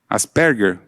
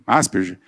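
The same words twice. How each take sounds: First: The name is said with its original pronunciation. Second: The name is said with its everyday popular pronunciation. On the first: The speaker calls it right. "é o modo certo de falar" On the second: The speaker calls it wrong. "mas ninguém fala assim, é Asperger"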